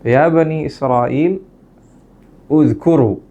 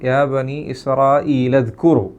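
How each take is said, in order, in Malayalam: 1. അവസാന വാക്കിന് മുമ്പ് നിർത്തുന്നു, പിന്നെ അത് പുതുതായി തുടങ്ങുന്നു. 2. നിർത്താതെ നേരെ അവസാന വാക്കിലേക്ക് ഒഴുകുന്നു. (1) "നിർത്തിയിട്ടാണ് ആരംഭിക്കുന്നത് എങ്കിൽ" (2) "കൂട്ടി ഓതാണെങ്കിലോ"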